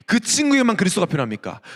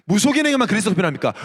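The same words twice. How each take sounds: First: 친구에게만 leaned on, falling at the end; stress on 친구에게만. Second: 무속인에게만 pushed out fast and falling; stress on 무속인에게만. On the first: Preacher challenges the congregation, stressing 친구에게만. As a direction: press the word 친구에게만 as the point. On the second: Preacher presses the congregation, stressing 무속인에게만 fast. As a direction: hit 무속인에게만 quickly and firmly. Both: Shown as a demonstration.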